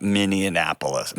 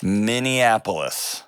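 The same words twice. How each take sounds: First: Minneapolis slow, as Minnie-annapolis; slow Minneapolis with an N slipped in before "ap"; mispronounced place name. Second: Minneapolis drawn out slowly, MIN-ee-AP-olis; slow Minneapolis with no extra N; careful correct pronunciation. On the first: Host replaying his slip, mispronounced Minneapolis. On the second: Host practising the city name, careful correct Minneapolis. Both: Shown as a demonstration. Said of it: "Did I say Minneapolis?".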